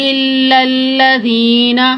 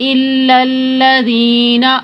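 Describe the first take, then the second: No difference in how they are said.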